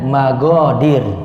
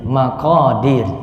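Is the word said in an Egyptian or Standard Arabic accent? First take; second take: Egyptian; Standard. First: It is said with an Egyptian g sound. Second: It is said with a standard Arabic q sound.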